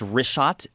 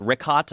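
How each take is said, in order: First: The name is said with a 'sh' sound. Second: The name is said with a 'k' sound. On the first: The speaker calls it right. "I just want to say it's Richat" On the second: The speaker calls it wrong. "I was pr- mispronouncing it"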